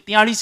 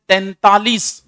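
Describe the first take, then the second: First: The word begins with a 'tiya' sound. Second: The word begins with a nasal 'tain' sound. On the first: The speaker calls it wrong. "नहीं तो तियालीस ही ठोक क्या होगा" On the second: The speaker calls it right. "अब अगर आपने कभी बोला है तैंतालीस"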